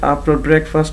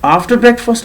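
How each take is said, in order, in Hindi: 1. यह एक ही सपाट, एक जैसे लहजे में कहा गया है। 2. यह उतार-चढ़ाव वाले सुर और बल के साथ कहा गया है। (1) "अभी देखिए एक ही टोन में जा रहा है" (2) "थोड़ा सा आवाज़ की उतार चढ़ाव, स्ट्रेस"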